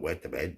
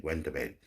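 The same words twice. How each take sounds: First: "wet" said with no n, like w-e-t; "wet to bed", dropping the n sound from went; mock wrong say. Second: "went" said in full with the n, w-e-n-t; "went to bed", nasal n clearly sounded; correct say. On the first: Mocking a mate who says "wet to bed" instead of went, clipped mispronunciation. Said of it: "Not wet to bed". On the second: Correcting the mumbled version to viewers, clear "went". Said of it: "Not wet to bed, went to bed". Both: Shown as a demonstration.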